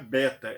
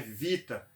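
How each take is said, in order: First: The word begins with a B sound. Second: The word begins with a V sound. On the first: The speaker calls it wrong. "o som não é beta" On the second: The speaker calls it right. "é vita"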